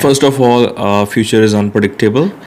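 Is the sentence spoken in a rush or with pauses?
with pauses. It is spoken calmly with clear pauses. The speaker calls it right. "पॉज important होते हैं"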